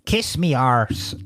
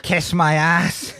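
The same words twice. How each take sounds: First: Slow mock stage-Irish accent; bad film Irish. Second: Slow, spelled-out English translation; English version. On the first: Comedian quoting actor's first argument, bad film Irish accent. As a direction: put on a drawn-out fake Irish accent. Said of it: "he says various things ... where he goes". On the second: Retold or imitated. Comedian quoting her saying it in English, slow English version. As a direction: say it slowly in non-Irish English. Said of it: "and then she says in English".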